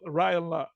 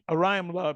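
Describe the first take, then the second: First: The name starts without the 'o' sound. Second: The name begins with an 'o' sound. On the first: The speaker calls it wrong. "He said Ryan Ryan Lob" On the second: The speaker calls it right. "It's Orion Orion Lob"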